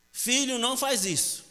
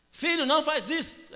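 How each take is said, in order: First: Higher-pitched mock mother's warning; motherly warning. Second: High-pitched exasperated mock scolding; exasperated mother. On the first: Mother tells her naughty son to stop, motherly warning. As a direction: warn the child, pitched up. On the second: Mother's son keeps misbehaving, exasperated scolding. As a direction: plead sharply, voice pushed right up.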